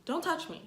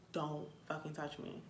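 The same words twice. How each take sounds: First: Shouting at a stranger to back off; sharp yell. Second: Softer, lower, held-back threat; quiet warning muttered at a stranger. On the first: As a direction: bark it at someone grabbing you. Warning strangers off. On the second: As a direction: say it under your breath, menacing. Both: Retold or imitated.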